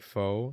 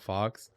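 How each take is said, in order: First: The name ends in a plain vowel, no x sound. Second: The name ends with a clear x sound. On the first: The speaker calls it right. "I think that name is like pronounced like Foe" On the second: The speaker calls it wrong. "not Fox"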